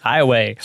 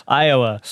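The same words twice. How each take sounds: First: Texan accent, Iowa said as "eye-oh-way". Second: Said in the usual way. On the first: Shown as a demonstration. Host caught his slip, he shows his Texan Iowa, Texan "eye-oh-way". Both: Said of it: "That's my Texan accent".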